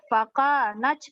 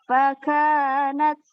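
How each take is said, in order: First: A strong puff of breath follows the t. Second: A slight puff of breath follows the t. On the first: The speaker calls it wrong. "hamsnya jangan terlalu berlebihan ya... jangan sampai seperti itu" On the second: The speaker calls it right. "cukup angin keluar sedikit"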